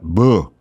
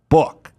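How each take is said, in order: First: The word ends without any k sound. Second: The word ends with a clear k sound. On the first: The speaker calls it wrong. "It's not boo" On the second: The speaker calls it right. "it's book"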